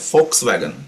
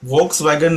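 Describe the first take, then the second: First: The word begins with an f sound. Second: The word begins with a v sound. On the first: The speaker calls it right. "याचं नाव आहे फोक्स वॅगन" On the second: The speaker calls it wrong. "व्होक्स वॅगन न बोलता"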